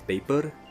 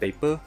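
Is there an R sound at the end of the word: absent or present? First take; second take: present; absent. First: The word ends with an R sound. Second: The word ends without an R sound. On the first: The speaker calls it right. "If you add the R sound at the back, it will sound pretty good" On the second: The speaker calls it wrong. "If you say paper without the R sound, it will not sound pretty good"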